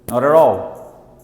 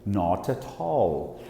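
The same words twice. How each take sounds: First: It is said with an American accent. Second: It is said with a British accent.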